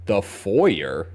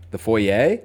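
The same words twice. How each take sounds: First: "foyer" said as FOY-er, ending in an r sound; foy-er pronunciation. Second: "foyer" said foy-AY, rising, no r; "foyer" as foy-ay, question rising; foy-ay pronunciation. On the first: Real, not acted. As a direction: rhyme "foyer" with lawyer. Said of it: "Why are you saying foyer like that?". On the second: Shown as a demonstration. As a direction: say "foyer" the French-style way, foy-ay. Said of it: "How do you say foyer normally?".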